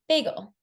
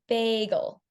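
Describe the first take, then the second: First: The whole word is said quickly. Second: Only the start is slow, then it speeds up. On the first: "how quickly I said it there" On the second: "You only used a slow rate at the beginning of the word"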